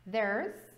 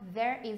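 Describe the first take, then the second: First: It is contracted into a single syllable. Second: It is said as two full words.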